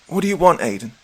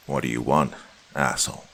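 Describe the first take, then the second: First: High, louder sharp demand. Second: Spat out contemptuously, a touch lower. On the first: Acted. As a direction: snap the question upward. Allison demanding from beside him. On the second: A narrator's reading. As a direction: spit the words with contempt. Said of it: "I spat".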